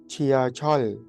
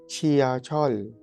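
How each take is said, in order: No difference in how they are said.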